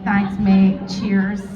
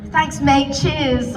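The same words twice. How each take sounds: First: Lower, casual British thanks; British accent. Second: Mock your own slip into an English accent. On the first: Real, not acted. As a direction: slip briefly into a British accent. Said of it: "I became British for a second". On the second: Shown as a demonstration. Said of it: "It was more English".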